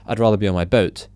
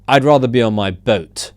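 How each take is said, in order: First: It is said in a plain, neutral way. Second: It is said with sass and a firm ending. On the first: It is just an ordinary statement. "it doesn't just read" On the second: The speaker does not want to be bothered. "don't talk to me kind of thing"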